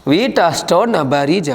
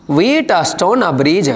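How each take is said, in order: First: Wheatstone bridge repeated slowly, Wheatstone stressed; फिर से धीमे, Wheatstone पर ज़ोर; repeating the term. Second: WHEATSTONE said slowly and stressed; धीमे से, Wheatstone पर ज़ोर; dictating the term. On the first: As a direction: say Wheatstone bridge again, slow and clear. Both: Shown as a demonstration. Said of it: "sir, ये कौन सा bridge है?".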